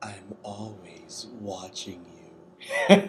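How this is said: It is said in a put-on Molestia voice.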